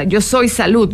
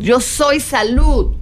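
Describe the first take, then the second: First: Said in the usual way. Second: Yo soy salud drawn out slowly, each word weighed; slow affirmation. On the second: Shown as a demonstration. Teacher demonstrating an affirmation to her students, slow and deliberate. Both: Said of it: "hazte una serie de afirmaciones".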